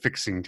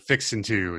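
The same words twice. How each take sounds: First: The final G of 'fixing' is pronounced. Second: The final G of 'fixing' is dropped.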